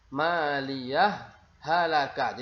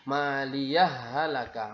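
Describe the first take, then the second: First: The first h is pronounced with a slight gap. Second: The first h merges straight into the second. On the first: "Jadi ada sedikit renggang waktu" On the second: "tidak ada renggang waktunya, langsung"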